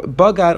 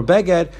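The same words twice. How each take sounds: First: "bagad", two open A vowels; pronounced bagad. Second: "beged", short E vowels in place of A; pronounced beged. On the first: Teacher contrasting the written word with its reading, pronounced "bagad". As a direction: say "bagad" with an A in both syllables. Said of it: "the way the Torah wrote". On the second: Teacher giving the other reading of the word, pronounced "beged". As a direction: say "beged" with an E in both syllables. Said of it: "the way that's read". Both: Shown as a demonstration.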